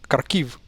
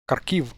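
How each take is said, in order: First: The stress is on the second syllable. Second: The same.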